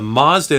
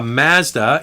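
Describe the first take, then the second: First: It is pronounced the American way. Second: It is pronounced the Canadian way. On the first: "It's called a Mazda in the United States" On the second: "we're reviewing a Mazda in Canada"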